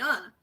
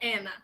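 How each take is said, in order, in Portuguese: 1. O nome é dito com sotaque brasileiro. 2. O nome é dito com sotaque americano. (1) "meu nome é Ana" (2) "eles falavam Ana, que não é meu nome"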